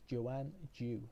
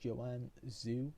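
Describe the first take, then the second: First: The surname starts with a hard 'j' sound. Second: The surname starts with a soft 'zh' sound. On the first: The speaker calls it right. "it's with a J" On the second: The speaker calls it wrong. "I believe that's how you pronounce it"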